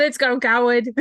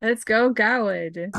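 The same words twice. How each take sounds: First: Louder, brisker cheer; insistent repeat. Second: Slow, drawn-out encouragement; root for your champion, stretching it out; cheering on. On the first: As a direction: repeat your cheer over the other speaker. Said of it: "I said". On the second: Player cheers on Garwood, first take. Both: Real, not acted.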